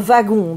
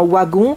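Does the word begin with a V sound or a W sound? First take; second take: V sound; W sound. First: The word begins with a V sound. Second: The word begins with a W sound. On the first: "je ne dis pas un wagon" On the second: "je dis un wagon"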